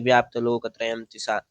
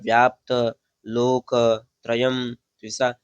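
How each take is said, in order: First: The words flow together without any pauses. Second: The words are split apart with small pauses. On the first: The speaker calls it right. "आपको पाठ इस प्रकार करना है" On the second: The speaker calls it wrong. "ऐसे करके नहीं बोलना है"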